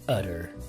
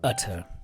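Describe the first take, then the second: First: The middle t sounds like a soft d. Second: The middle t is a crisp t.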